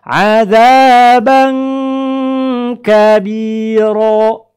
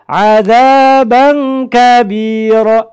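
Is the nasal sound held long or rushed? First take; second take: held; rushed. First: The nasal sound is held long before continuing. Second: The words are rushed with no held nasal. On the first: The speaker calls it right. "tahan dulu" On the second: The speaker calls it wrong. "itu tergesa-gesa"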